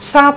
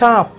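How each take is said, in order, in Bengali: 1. প্রথম ব্যঞ্জনটি হলো দন্ত্য hissing 's'। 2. প্রথম ব্যঞ্জনটি হলো তালব্য হুশিং 'sh'।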